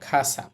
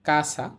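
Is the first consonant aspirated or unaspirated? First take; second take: aspirated; unaspirated. First: The first k sound has a breathy puff. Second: The first k sound has no breathy puff. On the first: "এটাকে আমরা বলবো খাসা" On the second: "কাসা না বলে"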